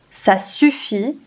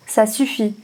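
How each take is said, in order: First: Slow and deliberate; slow repeat. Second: Said in the usual way. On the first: Shown as a demonstration. French teacher slowly repeating the line for the class. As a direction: drag it out so learners catch it. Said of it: "teacher repeats the line slowly". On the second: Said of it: "teacher first reads the line".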